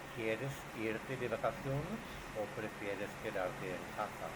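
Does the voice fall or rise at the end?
fall. The voice falls at the end. The speaker calls it right. "Opción uno"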